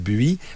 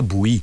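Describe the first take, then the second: First: The name is said with a French-style pronunciation. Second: The name is said with a Vietnamese-style pronunciation. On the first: This is how people usually say it. The speaker calls it wrong. "on dit Bui" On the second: This is how it is said in Vietnamese. The speaker calls it right. "on devrait dire Bouy"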